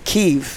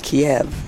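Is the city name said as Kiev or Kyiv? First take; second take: Kyiv; Kiev. First: The name is said in the newer form, Kyiv. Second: The name is said in the older form, Kiev. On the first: This is the current, sophisticated way of saying it. "the urbane urbanite pronounces it Kyiv" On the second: This is the older, outdated way of saying it. "I used to pronounce it Kiev"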